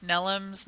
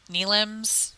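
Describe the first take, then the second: First: Nelims with first syllable like "Nell"; short E in Nelims. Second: Nelims with first syllable like "kneel"; long EE in Nelims. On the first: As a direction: say Nelims as NELL-umz, trying it out. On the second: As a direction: say Nelims as NEE-lumz, tentatively. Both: Real, not acted. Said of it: "going to say their last name wrong".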